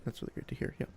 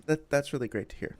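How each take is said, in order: First: Soft whispered repeat; whispering. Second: Said in the usual way. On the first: Real, not acted. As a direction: drop to a whisper. Repeats the phrase, now whispered.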